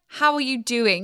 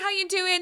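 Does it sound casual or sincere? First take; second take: sincere; casual. First: It sounds like a sincere, caring question. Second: It sounds like a casual passing greeting.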